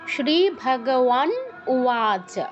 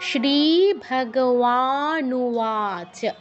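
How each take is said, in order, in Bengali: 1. শেষ দুটো শব্দ আলাদা করে বলা হয়। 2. শেষ দুটো শব্দ মিশিয়ে একটা করে বলা হয়। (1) "সন্ধি ভেঙে যদি বলি" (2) "একসাথে বলতে চাই"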